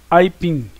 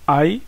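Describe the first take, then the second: First: Said in the usual way. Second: "Aipim" split as ai, then pim; long pause inside "Aipim"; syllable by syllable. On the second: Shown as a demonstration. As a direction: say "Aipim" as two separate beats. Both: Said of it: "Porque se separa assim".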